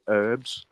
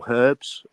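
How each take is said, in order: First: It is said in an American accent. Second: It is said in a British accent.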